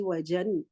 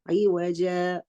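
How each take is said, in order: First: The word ends with a short vowel plus n. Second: The word ends with a lengthened a vowel. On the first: The speaker calls it wrong. "I don't say evajan" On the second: The speaker calls it right. "I read it as evaja"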